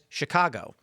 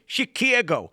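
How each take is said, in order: First: The word is said in a plain, unexaggerated way. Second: The word is said with an exaggerated regional accent. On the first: This is how locals say it. The speaker calls it right. "Everybody I know in Chicago says" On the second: This is how outsiders imagine locals say it. The speaker calls it wrong. "for some reason outside, everyone's like"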